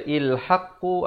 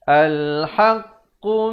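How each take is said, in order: First: The word begins with an i vowel. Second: The word begins with an a vowel. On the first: The speaker calls it wrong. "Jangan kita baca ilhaqqu" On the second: The speaker calls it right. "Yang betulnya al"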